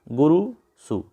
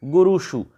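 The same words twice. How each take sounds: First: गुरुषु said with a dental s, गुरुसु; the wrong form गुरुषु, hissed dental s. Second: गुरुषु with the retroflex ष, tongue curled back; correct retroflex sh. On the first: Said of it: "दंत्य सकार दे के पूछ लिया जाता है". (गलत रूप: गुरुषु में दंत्य स) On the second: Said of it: "मूर्धन्य षकार वाला रूप सही होता है". (सही रूप: गुरुषु में मूर्धन्य ष) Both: Shown as a demonstration.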